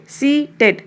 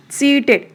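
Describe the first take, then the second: First: सीटेड broken into two beats; split into syllables. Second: Said in the usual way. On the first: Shown as a demonstration. Teacher giving a two-syllable example, सीटेड split in two. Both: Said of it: "two syllable".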